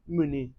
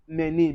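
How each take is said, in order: First: The first vowel is a weak 'uh' sound. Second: The first vowel is a clear 'ay' sound. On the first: The speaker calls it right. "We say" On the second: The speaker calls it wrong. "Mener is wrong"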